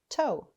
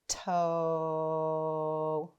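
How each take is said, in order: First: The sounds are said quickly together. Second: The sounds are drawn out slowly. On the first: "Let's say it fast" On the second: "Let's tap and stretch our sounds together"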